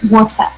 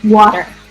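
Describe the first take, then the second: First: A British accent with a soft final R. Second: An American accent with a hard final R. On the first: "In British English, U K English, whatever, um, they're more like water. It's soft" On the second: "We say the er, like water"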